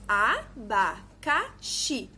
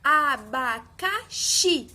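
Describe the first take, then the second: First: ABACAXI split as a, ba, ca, xi; syllable by syllable. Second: Abacaxi slowly, syllables apart, XI loudest; drawn-out Abacaxi building to a strong XI; stress on final XI. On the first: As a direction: say abacaxi slowly in four separate, evenly weighted syllables. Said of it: "Quatro sílabas". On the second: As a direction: punch the last syllable of Abacaxi. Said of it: "um som mais forte". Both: Shown as a demonstration.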